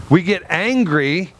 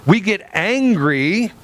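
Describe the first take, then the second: No difference in how they are said.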